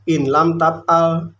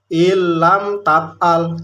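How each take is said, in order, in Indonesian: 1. Bunyi n terdengar jelas sebelum l. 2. Bunyi n menyatu dengan l yang mengikutinya. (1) "tidak boleh dibaca in lam tab'al" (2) "dibaca ilam tab'al"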